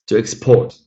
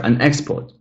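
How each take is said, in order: First: "export" as a verb, second syllable stressed; light start, weight on PORT in "export". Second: "export" as a noun, EX stressed; stress on first syllable. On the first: Teacher models the verb for students, second-syllable stress in "export". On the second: Teacher corrects the noun for students, first-syllable stress in "export". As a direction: put the weight on EX in "export". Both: Shown as a demonstration. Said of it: "we've got that pattern followed".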